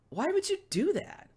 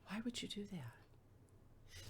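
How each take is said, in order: First: It is said in a harsh, higher tone. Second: It is said in a gentle, lower tone.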